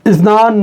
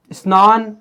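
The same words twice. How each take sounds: First: स्नान said louder, with the final न held long; स्नान with a stretched, louder ending; lengthened demo word. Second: Said in the usual way. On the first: Shown as a demonstration. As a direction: draw out स्नान as one clear unit. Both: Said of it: "जैसे मैंने बोल दिया".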